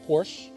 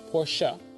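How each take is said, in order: First: It sounds just like the word porch. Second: It does not sound like the word porch. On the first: The speaker calls it wrong. "not Porsche. Porsche is what you sit on in the summer" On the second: The speaker calls it right. "it's Porsche"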